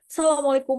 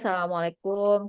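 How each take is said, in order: First: It is said in a high, raised voice. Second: It is said in a low, limp voice. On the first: People will pay attention to the speaker. The speaker calls it right. "Dengan nada kita tinggi, naik misalnya gitu ya, bukan berarti marah" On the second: People will laugh instead of paying attention. The speaker calls it wrong. "pasti orang pada ketawa"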